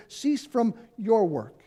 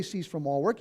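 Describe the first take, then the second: First: "your" in "Cease from your work" punched, slow; stress on YOUR. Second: "all" in "Cease from all work" carries the weight; stress on all. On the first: Pastor correcting the quote, slow, stress on your. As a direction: hit "your", slow and deliberate. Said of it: "He said". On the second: Pastor quoting the wrong version, stress on all. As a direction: lean into the word "all". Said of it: "he didn't say". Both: Shown as a demonstration.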